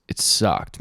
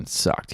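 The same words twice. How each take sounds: First: Said in the usual way. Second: Breathy whisper of "It sucked."; whispered aside. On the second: Real, not acted. Repeating "It sucked." to himself in a whisper.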